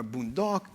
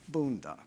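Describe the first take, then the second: First: Boondock said boon-DOCK; second-syllable stress. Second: Boondock said BOON-dock; first-syllable stress. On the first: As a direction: put the weight on the last syllable of boondock. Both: Shown as a demonstration. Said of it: "put the stress on the first syllable".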